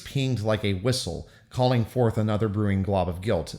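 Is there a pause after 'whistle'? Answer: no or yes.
yes. There is a pause after 'whistle'. The guilt is really being felt. "if you do the phrase"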